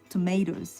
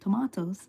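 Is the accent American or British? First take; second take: American; British. First: It is said in an American accent. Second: It is said in a British accent. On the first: "the American English is tomatoes" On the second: "the British English is tomatoes"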